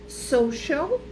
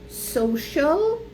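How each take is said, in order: No difference in how they are said.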